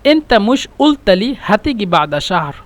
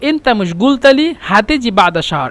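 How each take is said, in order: First: Qaf is dropped, jim a hard g. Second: Qaf is a hard g, jim a soft j. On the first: "কারোর যারা অধিবাসী তারা বলে" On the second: "এটা হলো আহলুস সুআইদরা বলে"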